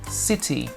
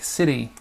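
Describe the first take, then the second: First: The middle consonant is a crisp T sound. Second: The middle consonant is a soft D-like tap. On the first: "In the U K, we would say, we would pronounce the T" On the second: "in the U S, we would pronounce it like a D"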